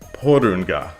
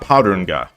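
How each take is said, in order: First: The first vowel sounds like 'oh'. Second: The first vowel sounds like 'ah'. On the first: The speaker calls it right. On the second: The speaker calls it wrong. "not Parunga"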